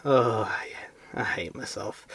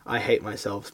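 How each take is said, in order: First: Breathy whispered self-loathing. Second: Said in the usual way. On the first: Shown as a demonstration. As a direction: whisper it like a hungover groan. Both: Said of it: "but I'm gonna give you one".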